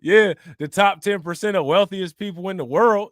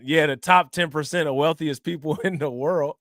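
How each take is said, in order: First: Said again louder, punching it; emphatic repeat. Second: Reading it out while cracking up; can't keep the laugh in; laughing through it. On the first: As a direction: repeat it with weight. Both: Real, not acted.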